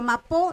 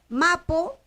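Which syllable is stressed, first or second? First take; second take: second; first. First: The stress is on the second syllable. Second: The stress is on the first syllable. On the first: "a pesar de ser abierta es la que está llevando la fuerza de pronunciación" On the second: "La segunda sílaba es abierta, acentúa entonces la primera"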